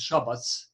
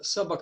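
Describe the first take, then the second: First: The name begins with an SH sound. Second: The name begins with a plain S sound. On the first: This is how Serbian speakers say it. "of Serbian is Shabac" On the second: This is how English speakers say it. "This is uh, of English uh, pronunciation"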